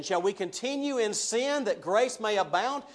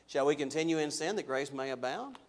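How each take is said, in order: First: Mock objector. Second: Said in the usual way. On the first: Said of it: "he anticipates them kind of saying this". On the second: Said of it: "His answer to that is".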